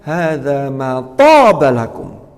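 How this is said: The stress falls on the word toba. "kalimat yang kedua di tobanya"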